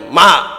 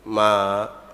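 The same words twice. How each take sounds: First: It is said louder and stronger. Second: It is said softly and gently.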